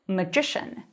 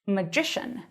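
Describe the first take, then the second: First: The stress is on the second syllable. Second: The same.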